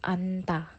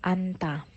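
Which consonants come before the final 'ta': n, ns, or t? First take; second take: n; n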